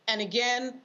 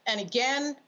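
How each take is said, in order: Both takes have the same delivery.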